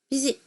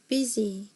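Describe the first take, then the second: First: The final vowel is clipped very short. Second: The final vowel keeps its normal length. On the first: The speaker calls it wrong. "이렇게는 하지 않아요" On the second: The speaker calls it right. "그냥 ... 원래 자기 소리만큼 하는 거예요"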